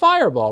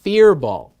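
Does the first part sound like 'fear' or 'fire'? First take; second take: fire; fear. First: The first part sounds like 'fire'. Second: The first part sounds like 'fear'. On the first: The speaker calls it wrong. "you'd pronounce that Fireball" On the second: The speaker calls it right. "It's pronounced Fearball"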